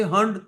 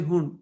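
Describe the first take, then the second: First: "Hund" said as "hund" with a short uh, final d heard; alternative pronunciation of Hund. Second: "Hund" said as "hoon", with an oo vowel; alternative pronunciation of Hund. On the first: Teacher offers students one option, "Hund" rhyming with "fund". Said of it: "So you can say Hund". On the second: Teacher offers students the other option, "Hund" as "hoon". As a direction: say "Hund" to rhyme with "moon". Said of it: "you can say Hund". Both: Shown as a demonstration.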